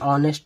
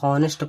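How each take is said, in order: First: The word begins with a vowel, h silent. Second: The word begins with an audible h sound. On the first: The speaker calls it right. "लेकिन शुद्ध क्या है ये an ऑनेस्ट man" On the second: The speaker calls it wrong. "इसको बहुत से लोग हॉनेस्ट पढ़ते हैं"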